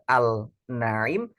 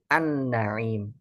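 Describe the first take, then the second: First: The l is sounded clearly before the n. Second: The l merges into a doubled n. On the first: The speaker calls it wrong. "bukan kita baca al-naim" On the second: The speaker calls it right. "tetapi an-naim"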